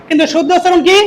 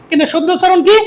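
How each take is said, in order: The two takes are said the same way.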